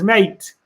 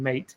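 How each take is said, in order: First: "Mate" punched louder and higher, with a falling end; "Mate" said loud and firm, as proof; emphatic mate. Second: Said in the usual way. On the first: Shown as a demonstration. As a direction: land hard on "Mate" and drop it. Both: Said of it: "He used the word mate".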